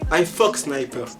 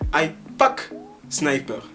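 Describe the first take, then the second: First: The second word starts with an F sound. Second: The second word starts with a P sound. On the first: "en vérité il veut dire I fuck sniper" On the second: "ils ne savent pas prononcer la lettre F, ils utilisent la lettre P"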